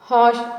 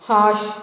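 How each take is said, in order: The two takes are said the same way.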